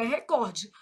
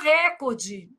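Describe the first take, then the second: First: The stress is on the second syllable. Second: The stress is on the first syllable. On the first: The speaker calls it right. "Mas o certo é recorde" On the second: The speaker calls it wrong. "que todo mundo fala recorde? ... Influência do inglês"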